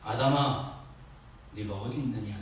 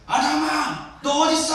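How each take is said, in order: First: It is said gently and calmly. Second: It is said forcefully, like a shout.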